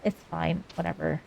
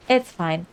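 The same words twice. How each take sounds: First: It's fine, whatever, muttered much softer and lower; sulky mutter. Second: Said in the usual way. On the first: Real, not acted. Grumbling to chat about the dreaded spyglass task, sulky and soft. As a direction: grumble it under your breath, giving in.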